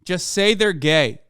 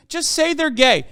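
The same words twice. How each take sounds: First: Said in the usual way. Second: Streamer scolding Twitter critics, pushing harder; raised exasperated repeat. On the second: Shown as a demonstration.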